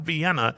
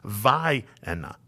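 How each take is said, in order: First: It sounds like the European city's name. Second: It sounds different from the European city's name. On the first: This is how an outsider would read it. The speaker calls it wrong. "It's not Vienna. / named after the city in Europe" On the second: This is how locals say the town's name. The speaker calls it right. "It's Vienna"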